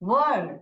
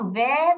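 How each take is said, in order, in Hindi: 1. स्वर की ध्वनि 'er' जैसी है। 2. स्वर की ध्वनि 'air' जैसी है। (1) "वर्ड वर्ड ऐसे प्रोनाउंस करते हैं" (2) "इसको हम वेर प्रोनाउंस नहीं करते हैं"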